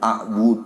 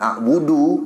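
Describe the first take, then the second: First: The word stops on the d sound. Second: The word ends with an added vowel. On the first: The speaker calls it right. "Dal itu yang seperti kita katakan" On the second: The speaker calls it wrong. "bukan a'budu"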